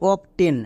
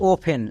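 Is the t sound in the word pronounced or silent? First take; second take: pronounced; silent. First: The t sound is pronounced in the middle. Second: The t sound is silent in the middle. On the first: The speaker calls it wrong. "একে অনেকে উচ্চারণ করে অফ টেন" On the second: The speaker calls it right. "এখানে টি এর উচ্চারণ হবে না"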